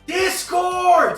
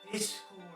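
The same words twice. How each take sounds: First: The word is said very loudly. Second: The word is said at normal, quieter volume.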